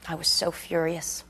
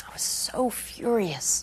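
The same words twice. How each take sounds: First: Said in the usual way. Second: SO drawn out slow and higher; emphatic fury. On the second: Acted. Resident recalling her anger over her dad, emphatic fury on a long "so". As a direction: stretch out the word "so" in hushed fury. Furious line repeated with more force.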